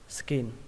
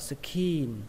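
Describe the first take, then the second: First: The vowel is short and clipped. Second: The vowel is drawn out long. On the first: The speaker calls it right. "nó là âm y ngắn" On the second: The speaker calls it wrong. "đừng có kéo dài nó ra. Đừng có đọc là skin"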